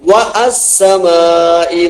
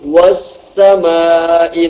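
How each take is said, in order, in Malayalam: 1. ഒരു ഗ്ലോട്ടൽ സ്റ്റോപ്പ് 'wa'യെ 'as'ൽ നിന്ന് വേർതിരിക്കുന്നു. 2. 'Wa' സ്റ്റോപ്പില്ലാതെ നേരിട്ട് 'ssamai'യിലേക്ക് ചേരുന്നു. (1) "വ അസ്സമാഇ എന്ന് വായിക്കാറില്ല" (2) "വസ്സമാഇ എന്ന് വായിക്കാം"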